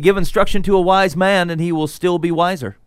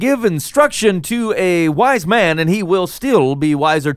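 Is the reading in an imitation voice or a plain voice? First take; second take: plain; imitation. First: It is read in the speaker's ordinary reading voice. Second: It is read in a put-on imitation voice. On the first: "You're giving it away by the way you read it" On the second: "it's a combination of [name] and [name]. That's what I was going for"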